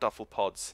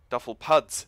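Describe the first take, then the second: First: The second word has the vowel of 'pods'. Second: The second word has the vowel of 'puds'. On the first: The speaker calls it wrong. "not duffel pods" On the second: The speaker calls it right.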